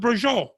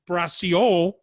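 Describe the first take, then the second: First: The word is clipped, its ending dropped. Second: The word is said in full, all syllables. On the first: The speaker calls it right. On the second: The speaker calls it wrong. "you don't say"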